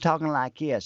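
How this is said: It is said in a changed accent and tone. "change my accent and change my vocal tone"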